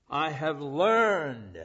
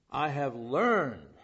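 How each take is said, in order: First: "I have learned" slow, each word weighted; stress on learned. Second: "I have learned" repeated slowly, "learned" pressed; stress on learned again. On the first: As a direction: lean hard on "learned", slowly. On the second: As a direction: draw out "learned" with weight. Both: Shown as a demonstration. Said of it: "let me emphasize that word".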